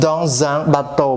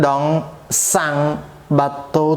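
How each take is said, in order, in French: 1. Les mots sont liés par un son z. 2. Les mots sont liés par un son s. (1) "គឺសំឡេង z" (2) "មិនមែន"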